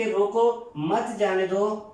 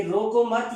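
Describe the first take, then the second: First: روکو, clear break, then مت جانے دو run together; pause after روکو. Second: روکو مت said as one unit; مت joined to روکو. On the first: Teacher reads it as an order to stop someone, pausing after روکو. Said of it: "ہم نے لگایا روکو کے بعد". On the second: Teacher reads it as "don't stop him", grouping روکو مت together. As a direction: run روکو straight into مت, then stop. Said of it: "مت روکو، اسے جانے دو". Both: Shown as a demonstration.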